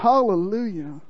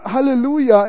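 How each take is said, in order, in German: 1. Es wird tief aus dem Rachen gesagt. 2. Es wird leicht gesagt, ohne Rachenresonanz. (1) "das muss irgendwo im Rachenbereich kommen" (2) "lasst euch nicht mit einem Halleluja entwischen"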